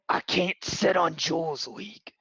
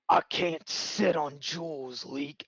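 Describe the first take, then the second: First: The voice is lighter and less gruff. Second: The voice is very gruff and dejected.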